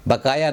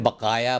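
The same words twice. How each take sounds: First: बकाया with an ordinary k; wrong pronunciation. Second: बकाया with q from back in the throat; correct pronunciation. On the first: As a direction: say बकाया with k, not q. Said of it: "बकाया ना बोलें". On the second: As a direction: say बकाया as "ba-qaa-ya". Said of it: "बकाया बोलें". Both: Shown as a demonstration.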